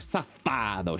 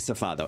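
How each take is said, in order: First: The word is said angrily, with force. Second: The word is said calmly, without anger. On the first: The speaker calls it right. "you have to be mad" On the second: The speaker calls it wrong. "You just can't say Safado"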